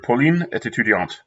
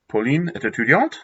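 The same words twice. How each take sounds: First: The voice falls at the end. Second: The voice rises at the end. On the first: It states a fact. "the example here" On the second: It asks a question. "You can make it into a question"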